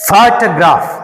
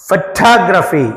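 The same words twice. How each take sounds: First: photograph with a strong ఫో, weak remaining syllables; stress on first syllable. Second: photography with a weak opening and strong second syllable TOG; stress on second syllable. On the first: Teacher modelling for students, first syllable of photograph stressed. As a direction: punch the opening ఫో of photograph. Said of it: "పిహెచ్ఓకి ఎక్కువ stress ఉంటది". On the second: Teacher modelling for students, second syllable of photography stressed. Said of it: "దీనికి stress వస్తుంది". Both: Shown as a demonstration.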